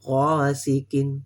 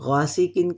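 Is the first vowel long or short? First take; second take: long; short. First: The first vowel is stretched out long. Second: The first vowel is short, not stretched. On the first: The speaker calls it right. "गा को थोड़ा-सा खींचना दो हरकत तक" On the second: The speaker calls it wrong. "ये गासिकिन कहेंगे तो ये गलत है"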